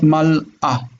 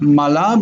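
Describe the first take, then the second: First: Mal'a slowly, with a clean stop between mal and a; break at the Aleph. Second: Mala run together as ma-la, the l joined to the last vowel; no break. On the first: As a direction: split Mal'a into mal, then a fresh a. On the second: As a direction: say Mala smoothly with no stop inside. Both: Shown as a demonstration. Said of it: "The Aleph is a break".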